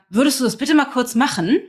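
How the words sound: It sounds reproachful, with an accusing tone.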